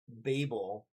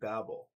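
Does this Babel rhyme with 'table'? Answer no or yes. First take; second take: yes; no. First: The word rhymes with table. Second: The word does not rhyme with table. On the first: This is how the speaker's own church community says it. "I think we have tended to say Babel" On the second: This is how people from other churches say it. "my Sunday church friends were saying Babel, something like that"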